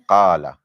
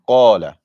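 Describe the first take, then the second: First: The first consonant is light and thin. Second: The first consonant is heavy and deep. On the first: The speaker calls it wrong. "not qala" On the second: The speaker calls it right. "The most important thing in qala is the heaviness of the qaf"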